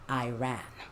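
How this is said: It is said with an American pronunciation. The speaker calls it wrong. "I don't want to hear that American pronunciation in here"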